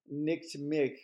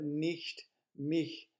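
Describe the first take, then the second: First: The ch sounds like a hard k. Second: The ch sounds like a soft hiss. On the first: The speaker calls it wrong. "Be careful it's not Nick, like N-I-C-K, the name, and like Nick" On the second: The speaker calls it right. "but nicht mich liebe"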